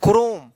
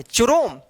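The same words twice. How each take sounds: First: क्रोम with a hard "k" at the start; correct pronunciation demo. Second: चुरोम with a "ch" sound at the start; mispronunciation demo. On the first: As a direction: say क्रोम as "krome", CH sounded as k. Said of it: "इसको पढ़ा जाएगा". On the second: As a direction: misread Chrome as चुरोम, "chu-rome". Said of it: "गलत हो जाएगा". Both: Shown as a demonstration.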